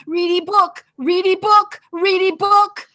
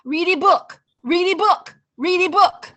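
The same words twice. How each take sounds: First: Put-on toddler chant climbing higher and louder each time; loud high child's chant rising in pitch. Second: Put-on high, loud child's chant repeating the same request; small child pestering, loud and high; toddler nagging. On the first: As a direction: let the nagging child's chant escalate, higher each repeat. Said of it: "It just got higher and higher". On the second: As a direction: nag like a twenty-month-old who wants a story. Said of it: "the little one comes up".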